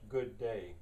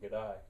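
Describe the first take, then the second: First: Two full words with equal stress on each. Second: Said in an Australian accent, squeezed into one word. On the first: "e- equally stressed" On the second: "the Australian way of saying good day"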